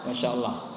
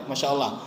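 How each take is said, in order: No difference in how they are said.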